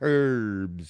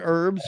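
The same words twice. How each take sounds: First: The word starts without any h sound. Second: The word starts with an audible h sound. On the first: "or do you say herbs?" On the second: "Do you pronounce the H in herbs"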